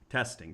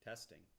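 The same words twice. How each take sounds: First: The voice is recorded at a higher level. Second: The voice is recorded at a low level. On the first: The speaker calls it right. "I'll increase the decibel level a little bit" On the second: The speaker calls it wrong. "your voice today is too low to hear well enough"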